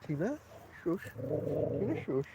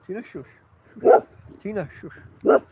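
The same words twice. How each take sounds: First: Soft shushing to the dog; quiet hushing. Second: Slow, louder scolding shush; firm shushing. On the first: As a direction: hush her gently under your breath. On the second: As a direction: tell the dog off, slowly and firmly. Firmer hushing the dog. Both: Real, not acted.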